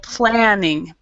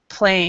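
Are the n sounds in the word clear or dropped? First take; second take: clear; dropped. First: Both n sounds are clearly pronounced. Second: The n sounds are dropped, like playing. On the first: The speaker calls it right. "try to say the the both ends" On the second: The speaker calls it wrong. "what I'm hearing sometimes is playing"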